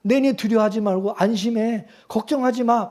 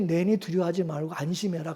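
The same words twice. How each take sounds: First: Said in the usual way. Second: Much softer, gentle and calm; soft reassuring Jesus. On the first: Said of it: "예수님이". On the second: Shown as a demonstration. Preacher voicing Jesus calming scared disciples, softly reassuring. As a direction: speak it like a quiet comfort to the frightened. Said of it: "마음이 평안해지겠죠".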